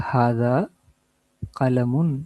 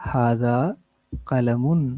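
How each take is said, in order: Both takes have the same delivery.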